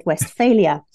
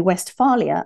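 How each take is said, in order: First: Westphalia with an 'ay', west-FAY-lia; own mistaken pronunciation. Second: Westphalia with a broad 'ah', west-FAH-lia; other speaker's pronunciation. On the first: Shown as a demonstration. Interviewer owning up to her slip, Westphalia with an 'ay'. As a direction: say Westphalia with FAIL in the middle. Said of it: "and I said Westphalia". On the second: Retold or imitated. Interviewer quoting her guest's version, Westphalia with an 'ah'. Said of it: "I also noticed that you say".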